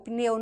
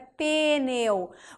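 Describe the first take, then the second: First: The p runs straight into the n. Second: An extra vowel separates the p and n. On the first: The speaker calls it right. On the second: The speaker calls it wrong.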